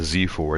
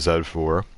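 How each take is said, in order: First: The letter Z is pronounced 'zee'. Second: The letter Z is pronounced 'zed'. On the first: The speaker calls it wrong. "it's not the Z four" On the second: The speaker calls it right. "the way you pronounce the letter Z is Z"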